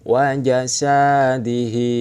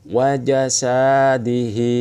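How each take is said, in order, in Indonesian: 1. Suku kata sa dibaca panjang. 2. Suku kata sa dibaca panjang.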